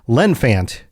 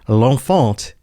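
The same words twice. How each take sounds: First: It is said with an American accent. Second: It is said with a French accent.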